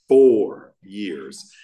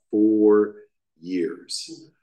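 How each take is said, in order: First: "Four years" said again with a loud punch on "Four"; emphatic repeat. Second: Said in the usual way. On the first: Shown as a demonstration. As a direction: hammer home "Four years", much louder.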